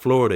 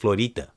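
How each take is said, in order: First: It is said with an English pronunciation. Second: It is said with a Spanish pronunciation. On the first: The speaker calls it wrong. "It's not Florida" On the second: The speaker calls it right. "the right way you pronounce it"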